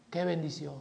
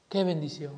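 First: Hushed. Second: Soft echo. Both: Real, not acted.

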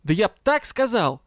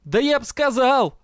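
First: Exasperated outburst with "так" punched; yelled, stressing так. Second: Exasperated yell, pitched high. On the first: Дроу repeats threat to colleague, exasperated stress on "так". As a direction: yell it, leaning hard on "так". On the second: Дроу answers irritated colleague, yelling in exasperation. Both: A narrator's reading. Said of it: "заорал Дроу".

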